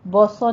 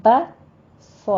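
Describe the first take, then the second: First: بوسو with the first vowel rounded to "bo"; wrong heavy با. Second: بس with a thin, open "ba" before the heavy ص; بس said deliberately, thin first and full after; correct light با. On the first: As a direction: fatten the ب in بوسو. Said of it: "نہیں کہنا". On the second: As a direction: keep the ب of بس light and unrounded. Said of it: "با کو پر نہیں کرنا". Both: Shown as a demonstration.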